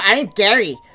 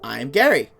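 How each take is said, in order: First: It is said in a put-on goblin voice. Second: It is said in a natural voice.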